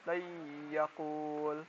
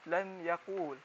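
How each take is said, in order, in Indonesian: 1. Bunyi n menyatu secara sengau ke dalam y. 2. Bunyi n diucapkan dengan jelas. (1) "kita masukkan huruf lam ini dengan huruf ya" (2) "bukan lan yakul"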